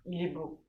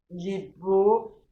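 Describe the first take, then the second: First: Said in the usual way. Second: Very slow, louder, beau stretched with a rise; emphatic repeat. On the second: Real, not acted. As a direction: linger adoringly on il est beau. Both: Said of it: "repeats phrase for emphasis".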